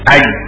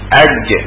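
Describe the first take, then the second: First: The final consonant is held and stops abruptly. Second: The final consonant is released with an echoing bounce. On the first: The speaker calls it wrong. "Ketika kita belum memberikan sifat yang seharusnya pada huruf jim ini, misalnya as-saut itu yanhabis, tertahan" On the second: The speaker calls it right. "bergetarnya atau memantulnya huruf tersebut ketika diucapkan"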